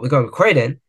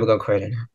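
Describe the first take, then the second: First: It is said eagerly, with lively enthusiasm. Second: It is said flatly, with no enthusiasm. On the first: The place feels vibrant and worth visiting. "it's never like" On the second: The place feels dull and unexciting. "it's like deadpan"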